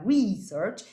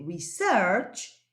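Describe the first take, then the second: First: The word carries the noun's shifted stress pattern. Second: The word carries the verb's stress pattern. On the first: It means an investigation. "cambiándole la acentuación a la palabra" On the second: It means to investigate. "estoy hablando de investigar, ese es el verbo research"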